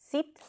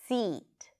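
First: The vowel is short and lax. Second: The vowel is long and tense. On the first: The speaker calls it wrong. "for those of you who substitute this sound with a neutral E sound" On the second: The speaker calls it right. "the length plays a significant role here as well"

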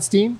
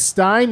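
First: The vowel sounds like 'ee'. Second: The vowel sounds like 'eye'. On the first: "not Steen?" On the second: "it's Stein"

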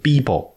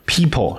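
First: It is said in an Indian English accent. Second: It is said in a standard English accent.

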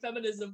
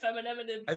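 First: The word is said with its usual syllables. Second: The word is said with extra m and n sounds. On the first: The speaker calls it right. "instead of saying feminism" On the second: The speaker calls it wrong. "I don't remember when I'm supposed to stop with all the M's and the N's"

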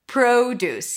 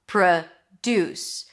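First: The stress is on the first syllable. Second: The stress is on the second syllable. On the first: It is a noun: fruit and vegetables grown on a farm. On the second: It is a verb: to make something.

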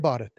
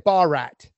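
First: The name is said the native Indian way. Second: The name is said the anglicized Western way. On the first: This is how the name should sound. The speaker calls it right. "they're not going to say Bharat" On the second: This is how Western people will mispronounce it. The speaker calls it wrong. "They're going to say Bharat"

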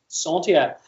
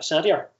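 First: It is pronounced the French way. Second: It is pronounced with a Northern Irish accent. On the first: "It's French. So it's Centaur" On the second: "or if you're from Northern Ireland, it's a Centaur"

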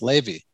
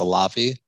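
First: The first syllable has an 'eh' vowel. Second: The first syllable has an open 'ah' vowel. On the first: The speaker calls it right. "but actually it is pronounced Levy" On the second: The speaker calls it wrong. "people pronounce it Lavi"

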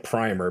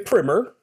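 First: The word is said in the American-style pronunciation. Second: The word is said in the Oxford-style pronunciation. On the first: "more American English readers might say primer" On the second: "I say primer because I pretend to be an Oxford Don"

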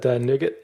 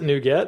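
First: It is said like the word 'nugget'. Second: It is said as two parts, 'new get'. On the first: This is how the speaker always imagined it. "I'd always said NuGet in my head, so maybe that's just my... inner craving for a candy bar" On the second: This is how the guest says it. "he pronounced it NuGet"

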